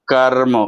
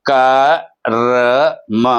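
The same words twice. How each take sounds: First: కర్మ as one joined word; half r run straight into మ in కర్మ; blended half r. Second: క, ర, మ as three separate sounds; sounded out slowly. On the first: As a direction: join the pieces into కర్మ. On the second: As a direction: pause between each piece: క ... ర ... మ. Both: Shown as a demonstration. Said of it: "ముందు సగమే పలుకుతాం, తర్వాత పూర్తి అక్షరం".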